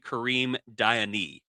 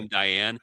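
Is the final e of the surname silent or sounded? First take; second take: sounded; silent. First: The surname ends with a sounded accented e. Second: The surname ends without a sounded final e. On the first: The speaker calls it right. "It's actually Kareem Diane" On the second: The speaker calls it wrong. "I thought it was"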